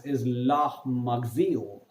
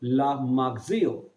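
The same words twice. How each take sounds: First: La Marseillaise said slowly, la mar-say-EZ; French pronunciation. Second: La Marseillaise repeated slowly, la mar-say-EZ; French pronunciation repeated. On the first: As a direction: give La Marseillaise its full French sound. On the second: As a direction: model La Marseillaise for students to copy. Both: Shown as a demonstration. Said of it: "I repeat".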